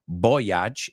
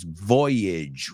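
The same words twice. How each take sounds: First: The last syllable does not rhyme with bridge. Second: The last syllable rhymes with bridge. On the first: The speaker calls it wrong. "It's not voyage" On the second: The speaker calls it right. "it's voyage. Rima con bridge"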